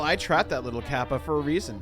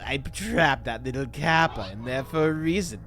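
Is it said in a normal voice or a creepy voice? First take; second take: normal; creepy. First: It is said in a normal voice. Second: It is said in a creepy voice.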